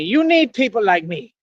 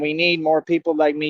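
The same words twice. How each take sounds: First: Higher-pitched, theatrical bad-guy delivery; movie bad-guy voice. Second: Said in the usual way. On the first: Vlogger quoting a movie bad guy to viewers, theatrical villain voice. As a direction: put on a defiant film-villain voice.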